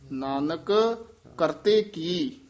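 There is a short pause after Nanak. The speaker calls it right. "Nanak ਇੱਥੇ ਵੀ ਠਹਿਰਾ ਦੇ ਦੇਣਾ।"

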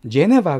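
It is said with flat Korean-style syllables. The speaker calls it wrong. "정확한 발음은 아닙니다"

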